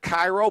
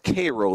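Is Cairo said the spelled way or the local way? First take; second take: spelled; local. First: Cairo is said the way it is spelled. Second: Cairo is said the way locals say it. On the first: This is how the spelling suggests it is said. "Spelled like Cairo" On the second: This is how the town's residents say it. "they pronounce it Cairo there"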